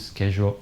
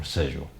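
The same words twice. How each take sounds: First: "schedule" with a hard SK start; American SCHEDULE. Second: "schedule" with a soft SH start; British SCHEDULE. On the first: Teacher offering both options for the verb, American SCHEDULE. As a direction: say "schedule" as SKE-jool. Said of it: "the American pronunciation pronounced". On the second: Teacher offering both options for the verb, British SCHEDULE. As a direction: say "schedule" as SHED-yool. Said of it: "the British pronunciation sounds something like". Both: Shown as a demonstration.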